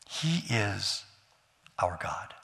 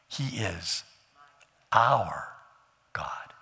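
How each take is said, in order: First: It is said without special stress on our. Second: The word our is stressed.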